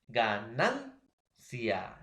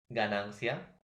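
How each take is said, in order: First: "ganancia" very slowly in pieces, ga-NAN-cia; stress on penultimate syllable. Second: Said in the usual way. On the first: Shown as a demonstration. Teacher showing students a grave word, stressed "nan" in "ganancia". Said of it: "la mayor fuerza de voz". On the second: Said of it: "Por ejemplo".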